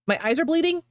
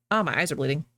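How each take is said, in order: First: Higher pitch, rising into a question; startled question. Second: Said in the usual way. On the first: Real, not acted. Streamer catches their own slip about bleeding eyes, startled question. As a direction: echo your own words in disbelief.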